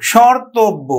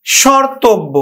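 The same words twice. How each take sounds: First: শর্তব্য repeated as "shortob"; শর্তব্য as "ortob", the m dropped; pronunciation demo. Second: শর্তব্য said "shortob", the m silent; শর্তব্য spoken as "shortob"; pronunciation demo. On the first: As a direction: say শর্তব্য once more with no m. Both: Shown as a demonstration. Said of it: "আমরা উচ্চারণ করি দেখো".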